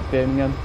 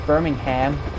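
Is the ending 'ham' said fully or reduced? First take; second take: reduced; full. First: The final syllable is a weak, reduced 'um'. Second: The final syllable is a full, clear 'ham'. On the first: "not Birmingham" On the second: "they full on pronounce the word ham at the end"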